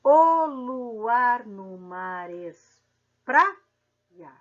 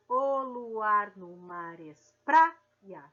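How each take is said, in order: First: Very slow, louder, syllables stretched; slow metric count. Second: Slow, even read of the verse. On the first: Teacher counting metric syllables for students, very slow. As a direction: count out the poetic syllables slowly. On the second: Teacher rereads the verse for the class, slow. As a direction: read it through calmly. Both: Shown as a demonstration. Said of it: "vamos fazer a separação poética ou métrica".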